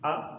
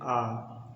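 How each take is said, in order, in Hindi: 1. स्वर सिर्फ़ थोड़ी देर खींचा जाता है। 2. स्वर ज़्यादा देर तक खींचा जाता है। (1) "छोटा का उच्चारण करेंगे तो हम बोलेंगे" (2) "जब बड़ा का उच्चारण करते हैं तो बोलते हैं"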